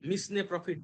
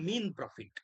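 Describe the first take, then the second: First: Mesne is said with an s, two syllables. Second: Mesne is said like mean, one syllable. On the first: The speaker calls it wrong. "এটাকে অনেকে মিসনে profit বলে। ... উচ্চারণ করবে না" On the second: The speaker calls it right. "তোমরা বলবা মিন profit"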